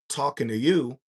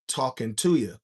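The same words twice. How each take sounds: First: It is pronounced the ordinary way, ending in 'you'. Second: It is pronounced so its ending rhymes with 'shooter'. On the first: "instead of saying talking to you" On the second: "I said talking to you"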